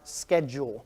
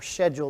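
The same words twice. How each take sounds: First: It is said with an American pronunciation. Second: It is said with a British pronunciation.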